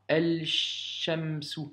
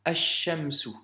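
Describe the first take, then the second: First: El-Shamsu avec le L articulé, lentement; El-Shamsu, mauvaise lecture avec le lam; L prononcé à tort. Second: Ash-Shamsu, lam muet, shin doublé; Ash-Shamsu sans prononcer le L; liaison shin doublé. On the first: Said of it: "et pas". (lecture fautive, lente) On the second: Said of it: "tu dois faire la liaison". (prononciation arabe avec assimilation) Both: Shown as a demonstration.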